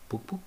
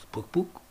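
First: Whispered knock-knock sound, quiet and high. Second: Spoken knock-knock, a bit higher, voiced; imitated knock. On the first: Retold or imitated. Fugitives knocking at night on the presbytery door, whispered knock. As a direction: tap it out softly in a whisper. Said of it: "knocking at the presbytery door". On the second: Fugitives knocking again when nobody answers, spoken knock. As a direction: knock again a little firmer. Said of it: "knocking again, no answer".

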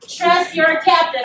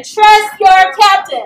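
First: Said in the usual way. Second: "Trust your captain" slow, loud, stress on "Trust"; loud slow call-out. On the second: Shown as a demonstration. Speaker leading the audience in a slow, loud call-out. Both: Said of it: "I want you guys to say".

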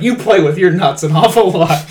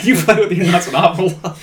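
First: Mock accusation. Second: Quoted again, lightly voiced. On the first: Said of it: "it's like". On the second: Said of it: "But, yeah".

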